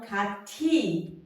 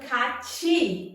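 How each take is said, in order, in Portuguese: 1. A segunda sílaba soa como ti. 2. A segunda sílaba soa como chi. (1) "e não 같이" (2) "Ficando 같이"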